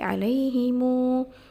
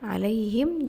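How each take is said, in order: First: The final m is followed by a long vowel. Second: The word ends on the consonant m.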